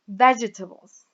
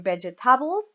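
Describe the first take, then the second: First: The stress is on the first syllable. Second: The stress is on a later syllable. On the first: The speaker calls it right. "here we have it on the first syllable, so we say vegetables" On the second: The speaker calls it wrong. "We don't say vegetables or vegetables"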